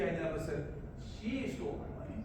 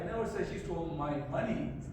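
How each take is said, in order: First: The word she is stressed. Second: The word money is stressed. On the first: Somebody else stole it. "if you I stress on she" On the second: She stole something else, not money. "meaning not my money, but something else"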